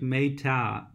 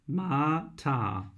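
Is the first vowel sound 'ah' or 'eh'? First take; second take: eh; ah. First: The first vowel sounds like 'eh'. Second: The first vowel sounds like 'ah'. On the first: The speaker calls it wrong. "you pronounce it like Meta" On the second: The speaker calls it right. "but it's Mata"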